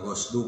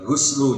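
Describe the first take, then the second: First: The first vowel is an open 'a' sound. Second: The first vowel is a rounded 'u' sound. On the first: "boleh dibaca dengan fathah ghainnya" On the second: "boleh dibaca dengan dhammah"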